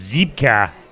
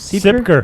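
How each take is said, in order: First: The name has a German pronunciation. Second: The name has an American English pronunciation.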